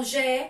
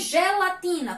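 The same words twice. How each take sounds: First: "gelatina" in four separate syllables. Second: Said in the usual way. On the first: Shown as a demonstration. Teacher counting four syllables, "gelatina" split up. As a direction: say "gelatina" as ge, la, ti, na with pauses. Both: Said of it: "quatro sílabas".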